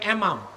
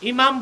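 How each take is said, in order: First: The word begins with an 'e' sound. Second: The word begins with an 'i' sound. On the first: This is the form the group uses. "বলে এমাম" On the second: This is the usual form the group avoids. "ইমাম বলে না"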